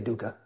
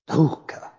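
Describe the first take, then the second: First: It is pronounced with anglicized, everyday sounds. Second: It is pronounced with traditional Sanskrit sounds. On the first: "But we just say Dukkha" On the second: "if I was going to pronounce it in the real official Sanskrit way"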